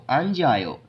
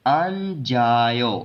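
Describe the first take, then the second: First: अन जायो run together at normal pace; अन जायो as one word; joined-up reading. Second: अन जायो slowly, stretched; drawn-out जा gliding into यो; double-consonant reading. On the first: Teacher finally says the word whole, joined-up अन जायो. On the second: Teacher repeats the rule's result, slow अन जायो. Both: Shown as a demonstration. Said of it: "इसको पढ़ना है".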